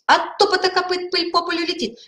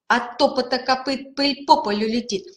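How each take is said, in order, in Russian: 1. Фраза произносится в самом быстром темпе. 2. Фраза произносится в более быстром темпе. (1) "еще быстрее" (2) "потом быстрее"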